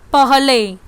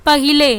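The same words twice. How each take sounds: First: पहले in two syllables, pah-le, no i; correct form. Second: पहिले in three syllables, pa-hi-le; wrong form. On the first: Teacher giving pupils the correct word पहले, no extra syllable. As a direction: say पहले cleanly without the hi. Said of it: "और सही शब्द आपका क्या है". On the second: Teacher reading the wrong spelling पहिले to pupils, extra hi syllable. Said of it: "पहिले गलत शब्द". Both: Shown as a demonstration.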